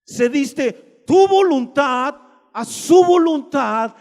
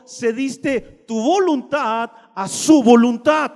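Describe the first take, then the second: First: "tu" punched, whole line louder and slow; louder slow repeat, stress on "tu"; preached emphasis on tu. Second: "su" lifted with a rising tune, slow; slow emphatic "su" at the end; stress on su. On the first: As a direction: hammer "tu voluntad" from the pulpit, slowly. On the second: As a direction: lean on "su voluntad", slow and rising. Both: Shown as a demonstration. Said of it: "¿Escuchaste?".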